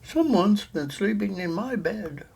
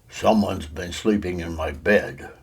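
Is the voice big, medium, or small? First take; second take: medium; big. First: It is said in a medium-sized voice. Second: It is said in a deep, big voice. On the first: A middle-sized mother bear is speaking. "said the mother bear in her middle-sized voice" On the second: A large father bear is speaking. "said the father bear in his great big voice"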